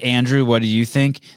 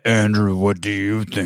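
First: The voice is at normal pitch and speed. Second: The voice is deep and slowed right down. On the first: "when she said" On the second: "They should have slowed it down so it was like in a really deep voice"

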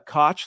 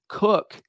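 First: The name rhymes with 'coke', a long o. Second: The name sounds like 'cook', a short vowel. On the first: The speaker calls it wrong. "you would think like Koch" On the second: The speaker calls it right. "that's how his family pronounces their name"

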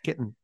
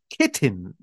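First: The T sounds are soft and barely released. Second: The T sounds are hit hard and crisp. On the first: "and then later on, she's just" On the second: "she really hits it hard the first time she says it"

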